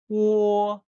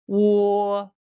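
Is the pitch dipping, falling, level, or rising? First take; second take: level; level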